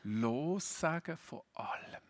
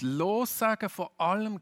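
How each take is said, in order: First: Slow, weighty Lossagen von allem; slow, held-back Lossagen von allem; slow and quiet. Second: Lossagen von allem called out high and loud; louder, higher preached Lossagen von allem; emphatic and loud. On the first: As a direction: let Lossagen von allem sink in slowly. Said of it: "Jesus setzt noch eins oben drauf". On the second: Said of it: "ein Thema, das sich in der ganzen Bibel immer wieder durchzieht". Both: Shown as a demonstration.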